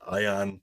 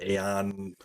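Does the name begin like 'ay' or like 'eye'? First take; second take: eye; ay. First: The name begins with an 'eye' sound. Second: The name begins with an 'ay' sound. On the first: This is how the speaker says it. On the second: This is how some other people say it.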